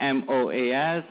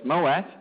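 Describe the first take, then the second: First: M O A S said letter by letter; name each letter in M O A S; spelled-out acronym. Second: Moas said as one word; acronym as word. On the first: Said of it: "we use an acronym". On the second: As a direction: run the letters together into moas. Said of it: "we pronounce it as". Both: Shown as a demonstration.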